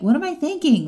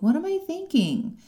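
First: It is asked in a judgmental, scolding tone. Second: It is asked in a curious, gentle tone.

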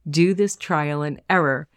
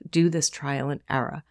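First: It is spoken with a standard accent. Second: It is spoken with a Boston accent.

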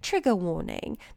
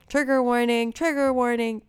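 First: It is said in a put-on British accent. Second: It is said in the speaker's usual accent.

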